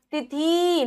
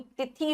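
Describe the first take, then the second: First: तिथि as a slow 'ti-theee'; slow तिथि with a held last vowel; long final ee. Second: तिथि as a softer 'ti-thi'; brief, soft ending on तिथि; short final i. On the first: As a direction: stretch the end of तिथि wrongly. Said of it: "तिथि नहीं". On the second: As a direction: clip the last vowel of तिथि. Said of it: "तिथि होगा". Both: Shown as a demonstration.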